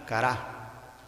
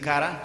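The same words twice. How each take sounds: First: The stress is on the last syllable. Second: The stress is on the first syllable. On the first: "solo se le pone la, el acento en la A final" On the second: "en vez de decir cara"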